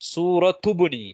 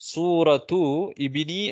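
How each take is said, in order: First: The initial vowel is dropped and the words linked. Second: The initial vowel of ibni is pronounced separately. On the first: "அலிஃப அந்த ஹம்சா விழுத்தாட்டிடுவோம் தானே" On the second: "சூரத்து இபினி என்று அப்படின்னு சொல்லாமல் நீங்க இப்ப இந்த கட்டத்துல அப்படி சொன்னா பிழை இல்ல"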